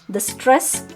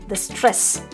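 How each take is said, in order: The two takes are said the same way.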